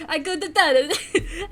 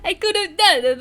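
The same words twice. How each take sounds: First: Slow, hammed-up bad Italian accent with a laugh; mock Italian, laughing through it; bad Italian accent, half laughing. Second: Louder, higher, laughing through "I could have done it"; laughing repeat, louder; laughing retake. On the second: Acted. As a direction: crack up while repeating it. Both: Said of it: "The bad Italian accent".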